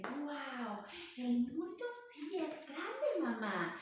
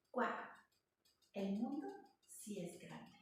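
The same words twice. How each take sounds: First: Put-on high, slow and wide-eyed, a child's wonder; amazed baby kangaroo. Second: Put-on wistful old kangaroo. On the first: Baby kangaroo peeking out to mama, amazed. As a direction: marvel at the big world like a little joey. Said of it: "cangurito se asoma por la bolsa y dice". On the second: Lonely grown kangaroo peeking from a tree, quiet and sad. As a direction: murmur it quietly from the tree hollow. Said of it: "se escucha su voz diciendo".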